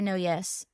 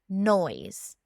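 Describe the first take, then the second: First: The name is said as two words, 'no yes'. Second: The name is said as one syllable, like 'noise'. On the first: This is a playful reading of the spelling. "but I'm going to say No Yes" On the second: This is the name's official pronunciation. "his legal pronunciation of his whole name is John Humphrey Noyes"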